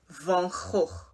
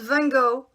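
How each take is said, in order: First: The name is said with a Dutch pronunciation. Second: The name is said with an English pronunciation. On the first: The speaker calls it right. "You pronounce it as Vincent van Gogh" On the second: The speaker calls it wrong. "Not Van Gogh"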